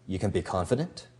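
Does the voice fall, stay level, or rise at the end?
rise. The pitch rises at the end. The speaker doubts the listener can be confident. The speaker calls it wrong. "Your voice can go up"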